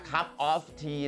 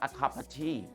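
First: Each word is said fully and separately. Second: The words run together with a reduced "of". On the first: The speaker calls it wrong. "ไม่ใช่ a cup of tea นะตอนเขียนอย่างนี้" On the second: The speaker calls it right. "แต่ตอนอ่านฝรั่งจะอ่านว่า"

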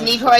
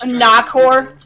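First: The first vowel sounds like 'ih'. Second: The first vowel sounds like 'ah'. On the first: The speaker calls it wrong. "It's actually not pronounced Nikor" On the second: The speaker calls it right. "it's pronounced Nakor"

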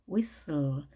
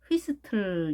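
First: It is said English-style with silent h and t. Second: It is said Korean-style with the h and t sounded. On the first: The speaker calls it right. "영어 발음은 whistle" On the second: The speaker calls it wrong. "휘스틀 이렇게 읽는 분도 혹시 계실지 모르겠는데"

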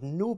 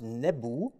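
First: The word is said as one short syllable. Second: The word is said as two syllables. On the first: The speaker calls it wrong. "our pronunciation of the word nub is more or less wrong" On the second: The speaker calls it right. "in ancient Egyptian it was pronounced nebu"

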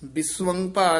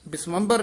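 First: The word is said in two separate parts. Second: The word is run together as one unit. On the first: The speaker calls it right. "ਪਹਿਲਾਂ ਬੋਲਣਾ ਬਿਸਵੰ, ਫਿਰ ਨਾਲ ਬੋਲ ਦੇਣਾ ਭਾਰ" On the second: The speaker calls it wrong. "ਬਿਸਵੰਬਰ ਨਹੀਂ ਕਹਿ ਜਾਣਾ"

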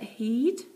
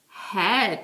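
First: The vowel is a long 'ee' sound. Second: The vowel is a short 'e' sound. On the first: The speaker calls it wrong. "Doesn't sound quite right, does it?" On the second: The speaker calls it right. "Super job. Like the head that's right here on my shoulders"

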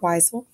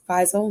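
First: The name begins with a W sound. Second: The name begins with a V sound. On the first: The speaker calls it wrong. "not Weisel" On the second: The speaker calls it right. "W is pronounced as V in German, so it's Weisel"

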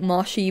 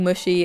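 First: The first syllable rhymes with 'gosh'. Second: The first syllable rhymes with 'gush'. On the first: This is the usual pronunciation. "most people pronounce it Moshi" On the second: This is the pronunciation from the speaker's upbringing. "I grew up saying Mushy"

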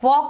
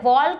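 First: The L sound is silent before the K. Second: The L sound is pronounced before the K. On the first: The speaker calls it right. "વોક બોલીએ છીએ" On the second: The speaker calls it wrong. "આપણે વોલ્ક નથી બોલતા"

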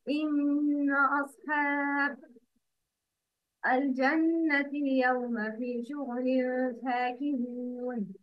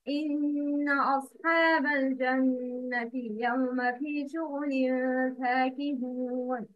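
First: There is a stop right after the second word. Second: The phrase flows on without a break after the second word. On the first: The meaning of the verse is broken. The speaker calls it wrong. "but the wrong is" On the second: The meaning of the verse is kept whole. The speaker calls it right. "The correct pronunciation is"

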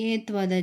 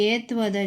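The two takes are said the same way.

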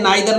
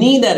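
First: The first vowel sounds like "eye". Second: The first vowel sounds like "ee". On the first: The speaker calls it wrong. "नाइदर नहीं है" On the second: The speaker calls it right. "नीदर है"

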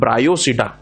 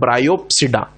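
First: The word is said without a p sound. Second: The word is said with a p sound. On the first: The speaker calls it right. "पी silent है" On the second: The speaker calls it wrong. "ना कि"

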